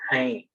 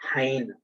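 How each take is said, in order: First: The final N is only a light nasal sound. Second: The final N is pronounced as a full consonant. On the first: The speaker calls it right. "the letter N is half sound" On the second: The speaker calls it wrong. "you should never say hein"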